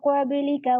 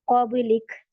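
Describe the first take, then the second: First: The word ends with a short final vowel. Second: The word ends cut off, without a final vowel. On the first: The reciter continues without stopping. "फिर मुझे इसे कंटिन्यू करना है" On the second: The reciter stops here. "सुकून बनाया मैंने"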